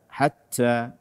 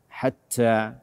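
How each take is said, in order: The two takes are said the same way.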